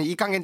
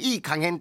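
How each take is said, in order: First: It has the usual everyday intonation. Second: It has a changed, different intonation. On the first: Something is careless or sloppy. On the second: Something is just right, in good measure.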